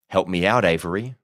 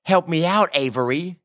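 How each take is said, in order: First: Said in the usual way. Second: Higher-pitched mimicry in an American drawl; mocking echo. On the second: A narrator's reading. Prisoner throws Boone's plea back, mocking. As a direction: parrot the plea back with scorn. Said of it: "he mocked".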